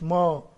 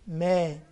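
First: The syllable is pronounced heavy and full. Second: The syllable is pronounced thin and light. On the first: The speaker calls it wrong. "مش ما" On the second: The speaker calls it right. "الما مرققة عشان عليها فتحة"

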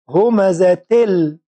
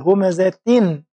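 First: The n sound is merged into a doubled l. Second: The word ends with a clear n sound. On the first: The speaker calls it right. "منطقش النون، تل اللام على طول" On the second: The speaker calls it wrong. "المفترض أقول همزة تن بالنون"

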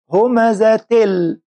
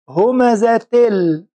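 Both takes have the same delivery.

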